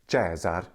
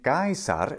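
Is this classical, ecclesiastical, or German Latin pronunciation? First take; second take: ecclesiastical; classical. First: It uses the ecclesiastical Latin pronunciation. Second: It uses the classical Latin pronunciation. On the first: "Caesar in the ecclesiastical Latin pronunciation" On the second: "Caesar in classical Latin"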